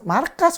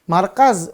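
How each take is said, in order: First: The word ends with a hissing s sound. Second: The word ends with a buzzing z sound.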